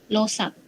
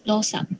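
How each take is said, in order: Both takes have the same delivery.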